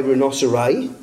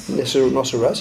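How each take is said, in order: First: Rhinoceri with a long -i ending, rhi-NOS-er-eye; quoting the odd plural rhinoceri; saying rhinoceri. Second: Rhinoceros said the usual way, ending in -os; plain Rhinoceros, set right; correct plural. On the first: Retold or imitated. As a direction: read rhinoceri as the missionary wrote it. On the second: Shown as a demonstration. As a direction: give the normal word Rhinoceros. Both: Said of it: "he put rhinoceri".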